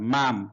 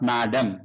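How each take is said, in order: First: The word is said as one short syllable. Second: The word is said as two full syllables. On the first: The speaker calls it right. "మేడమ్ కాదు మ్యామ్" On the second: The speaker calls it wrong. "Not మేడమ్"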